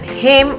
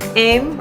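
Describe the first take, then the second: First: The word starts with a clear h sound. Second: The word starts without any h sound. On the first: "when it's written" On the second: "will be spoken like im"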